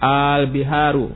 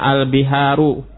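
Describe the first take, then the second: First: The opening vowel is drawn out long. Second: The opening vowel is short. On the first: It asks whether the word is a plural. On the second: It states that the word is a plural.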